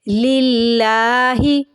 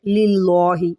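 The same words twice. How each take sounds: First: Slow लिल्लाहि with a thin, light ला. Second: लिल्लाहि with a thick, heavy ला; heavy la mistake. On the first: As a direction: chant लिल्लाहि slowly, plain light ला. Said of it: "इसको आप सादा पढ़ेंगे". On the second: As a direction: say लिल्लाहि with a dark, full ला, the mistake. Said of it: "ला को मोटा कर देते हैं". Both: Shown as a demonstration.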